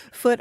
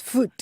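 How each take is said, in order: First: Said in the usual way. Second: "foot" said with a long oo, as in food; dialect vowel in foot. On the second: Shown as a demonstration. Explaining how the letter's word is said, "foot" with long oo. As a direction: stretch "foot" to rhyme with boot. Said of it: "always pronounced foot".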